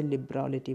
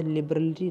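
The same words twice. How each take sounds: First: लिबरलिटी with an open, long "raa"; correct pronunciation. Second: लिबरलिटी with a short, weak middle vowel; wrong pronunciation. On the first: Teacher showing students the right लिबरलिटी, correct pronunciation. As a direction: say लिबरलिटी as "lib-raa-li-tee". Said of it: "इसे लिबरलिटी बोलेंगे". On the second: Teacher ruling out one way of saying लिबरलिटी, mispronunciation. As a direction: say लिबरलिटी as "lib-ruh-li-tee". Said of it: "इसे लिबरलिटी नहीं बोलेंगे". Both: Shown as a demonstration.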